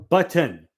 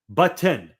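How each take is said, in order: Both takes have the same delivery.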